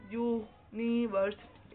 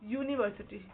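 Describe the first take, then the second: First: university stretched slowly, syllable by syllable; slow, drawn-out University. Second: Said in the usual way. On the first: Shown as a demonstration. Teacher to pupils, slow drawn-out demo word. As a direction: spell out university slowly for the class.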